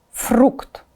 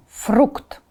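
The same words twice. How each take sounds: The two takes are said the same way.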